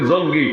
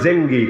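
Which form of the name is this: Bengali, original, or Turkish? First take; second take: Bengali; Turkish. First: The name is said with Bengali pronunciation. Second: The name is said with Turkish pronunciation. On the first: This is how it became known in Bangladesh. "বাংলাদেশে প্রসিদ্ধ হয়ে গেছে" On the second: This is how it is said in Turkey. "তুরস্কের উচ্চারণ বলে জেঙ্গি"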